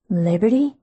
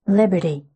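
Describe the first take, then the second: First: Liberty? rising on the last syllable; questioning name. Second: Liberty said low and gentle, falling; careful. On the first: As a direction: ask Liberty? with the end tipped up. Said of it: "A question tipped the last syllable of my name". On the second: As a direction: approach her carefully. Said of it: "he said carefully". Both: A narrator's reading.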